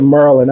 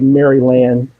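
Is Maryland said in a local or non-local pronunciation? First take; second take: local; non-local. First: It is said with the local Maryland pronunciation. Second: It is said with a non-local pronunciation. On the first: This is how locals say it. The speaker calls it right. "That's how we say it" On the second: This is how outsiders say it. The speaker calls it wrong. "We don't say Maryland"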